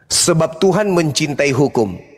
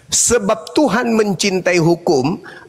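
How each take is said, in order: First: The sentence is read at a normal pace. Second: The sentence is read slowly and deliberately.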